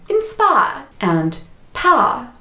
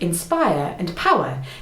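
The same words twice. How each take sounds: First: The R sounds are dropped. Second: The R sounds are pronounced.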